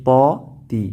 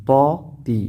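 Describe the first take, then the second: No difference in how they are said.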